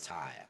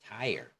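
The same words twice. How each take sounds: First: It is said with a British accent. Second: It is said with an American accent. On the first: "In British, they pronounce it as" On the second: "in American, they pronounce it as"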